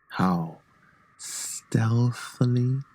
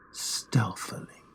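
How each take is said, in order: First: Drawn out, softer; slow and soft. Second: Slow, breathy whisper, all air. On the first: Narrator savouring how stealthily he moved. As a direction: stretch the word, creeping. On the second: Narrator whispering how stealthily he opened the lantern. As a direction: breathe the word like a secret. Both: A narrator's reading.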